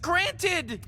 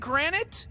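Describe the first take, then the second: First: The word ends with a clear D sound. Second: The word ends with a T sound, like granite. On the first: The speaker calls it right. "It's granted with a D" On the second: The speaker calls it wrong. "Are you saying granite?"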